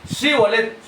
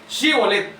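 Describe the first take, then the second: No difference in how they are said.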